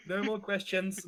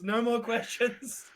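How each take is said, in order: First: Laughing. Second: Said in the usual way. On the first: Real, not acted.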